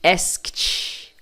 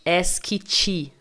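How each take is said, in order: First: ASKED in one syllable, "askt". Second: ASKED slowly broken up as "es-ki-tchi"; wrong extra vowels. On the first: Teacher repeats the correct past tense, ED as T. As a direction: finish ASKED with a voiceless, airy KT. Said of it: "o E D com som de T". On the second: Teacher warns learners what not to say, added vowels. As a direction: add an I after K and T in ASKED. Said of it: "Cuidado pra não falar". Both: Shown as a demonstration.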